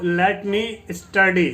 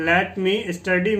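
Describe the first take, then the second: First: Très lentement, chaque syllabe détachée; slow model reading. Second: Slowly again, lifting on study; slow model reading, rising end. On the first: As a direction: spell it out slowly, ending down on study. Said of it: "teacher models the English phrase". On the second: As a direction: syllabe par syllabe, study qui monte. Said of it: "teacher repeats the phrase". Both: Shown as a demonstration.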